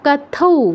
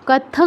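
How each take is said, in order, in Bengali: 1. শব্দটি একটি ou স্বরধ্বনি দিয়ে শেষ হয়। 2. শব্দটি একটি অনুনাসিক ng ধ্বনি দিয়ে শেষ হয়।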